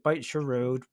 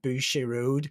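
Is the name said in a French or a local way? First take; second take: local; French. First: It is said the plain local way. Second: It is said the fancy French way. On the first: The speaker calls it right. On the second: The speaker calls it wrong.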